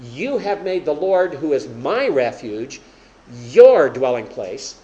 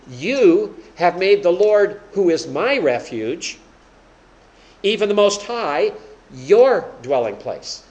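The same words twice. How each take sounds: First: Loud, slow, landing hard on "your"; stress on my and your. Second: Slow, loud, leaning on "my" and then "your"; stress on my and your. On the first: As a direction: say it to Dave, pushing "my" and then "your". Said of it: "if, like, I'm talking to Dave back there". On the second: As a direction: punch "my" rising and "your" falling, hammering the switch. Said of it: "Watch that change". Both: Shown as a demonstration.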